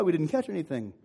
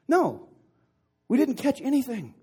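First: Said in the usual way. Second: High, loud call back across water; shouted reply. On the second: Acted. Skunked fishermen answering from the boat, shouted reply. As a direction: shout the admission back to shore.

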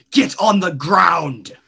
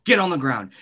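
First: Loud, slow shouted order; shouted command. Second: Said in the usual way. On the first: Acted. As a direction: bark it out slowly, louder.

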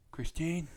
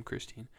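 First: Dad calling for mom, voice pitched up. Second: Said in the usual way. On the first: Retold or imitated. Dad shouting his wife's name from the garage, voice pitched up. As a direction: call out to the house like the dad. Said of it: "he's like". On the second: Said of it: "that's my mom's name".

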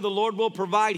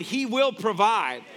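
First: Said in the usual way. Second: He will provide slowed down, weight on "will"; slow emphatic promise. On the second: Shown as a demonstration. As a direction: lean into "will", slow and sure.

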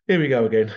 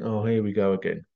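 First: Here we go again, said louder; a louder exasperated echo; louder repeat. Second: Said in the usual way. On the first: Retold or imitated. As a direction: hit it harder the second time. Weary repeated remark.

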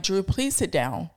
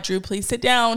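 First: Softer, patient mom repeating the request; nice mommy voice, softer. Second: Gentle, patient mom asking nicely, a bit higher; nice mommy voice. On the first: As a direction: hold back, keep it sweet in public. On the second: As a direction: coax the boy sweetly, public-polite. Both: Retold or imitated. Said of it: "Trying to use my nice mommy voice".

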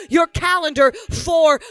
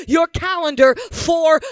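Both takes have the same delivery.

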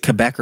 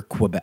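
First: Quebec said "kuh-BEK"; first syllable of Quebec as a plain "kuh". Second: Quebec said "kwuh-BEK"; first syllable of Quebec as "kwuh". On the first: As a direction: say Quebec without the W sound. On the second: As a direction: say Quebec with a W sound after the K. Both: Shown as a demonstration. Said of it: "Is it Quebec or Quebec?".

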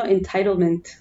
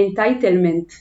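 First: Entitlement in American English accent. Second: Entitlement in a heavy Israeli accent. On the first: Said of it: "שאני אומרת במבטא אמריקאי". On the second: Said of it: "אני אגיד את זה במבטא ישראלי". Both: Shown as a demonstration.

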